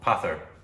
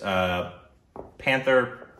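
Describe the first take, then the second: First: No n sound comes before the th. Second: An n sound comes before the th. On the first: The speaker calls it right. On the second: The speaker calls it wrong.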